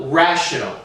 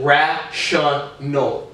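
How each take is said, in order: First: Said in the usual way. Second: "rational" slowly split as ra-shun-al; syllable by syllable. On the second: Shown as a demonstration. Showing how the word breaks down, "rational" in slow beats. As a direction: sound out "rational" with a full SHUN in the middle. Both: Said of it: "I pronounce shun".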